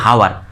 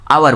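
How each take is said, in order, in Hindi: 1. शब्द की शुरुआत एच की ध्वनि से होती है। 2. शब्द की शुरुआत स्वर की ध्वनि से होती है। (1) "हम नहीं बोलते कि हावर" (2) "आवर बोलते हैं"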